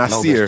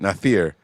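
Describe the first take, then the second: First: The middle consonant is a plain s sound. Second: The middle consonant is a lisped th sound. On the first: The speaker calls it wrong. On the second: The speaker calls it right. "I feel like I have a lisp when I say his name"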